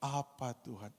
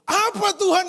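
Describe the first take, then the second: First: The question is asked in a pleasant, sweet tone. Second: The question is asked in an unpleasant, demanding tone. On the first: The question is a friendly, trusting request. "oh enak sekali" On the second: The question challenges and complains. "Tiba-tiba berubah"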